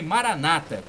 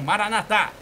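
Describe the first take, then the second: First: The stress is on the second-to-last syllable. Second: The stress is on the last syllable. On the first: This is how Protestants say it. "a tônica na penúltima sílaba" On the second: This is how Catholics say it. "com a tônica na última sílaba"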